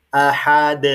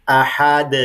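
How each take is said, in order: The two takes are said the same way.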